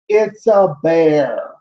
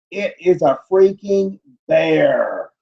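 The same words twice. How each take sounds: First: "It's a bear" said slowly, each word laid down firmly; slow and certain on "bear"; flat verdict. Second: "freaking" hit hard, the line slow and exasperated; stress on freaking. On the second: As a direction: lean on "freaking" as if stating the obvious. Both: Real, not acted. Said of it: "I looked at the video".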